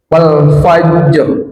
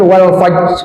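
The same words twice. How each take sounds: First: The final r sound is clearly pronounced. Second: The final r sound is dropped. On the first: The speaker calls it right. "wal fajr ada ro-nya" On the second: The speaker calls it wrong. "jangan wal fajr, nah, itu itu salah"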